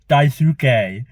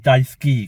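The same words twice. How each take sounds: First: The u after the s is clearly pronounced. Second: The u after the s is silent. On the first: The speaker calls it wrong. "I said it as Daisuke" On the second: The speaker calls it right. "it's actually Daisuke because it's a silent U"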